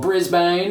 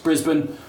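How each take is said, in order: First: It is said in an American accent. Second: It is said in an Australian accent. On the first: "if you're American" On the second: "which is Brisbane"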